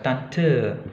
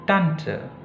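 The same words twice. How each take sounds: First: The stress is on the second syllable. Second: The stress is on the first syllable. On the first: The speaker calls it wrong. "bukan Tante" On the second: The speaker calls it right. "Jadi penekanannya di di tant"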